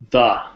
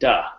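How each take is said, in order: First: The word starts with a soft th sound. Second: The word starts with a hard d sound. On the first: The speaker calls it right. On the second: The speaker calls it wrong.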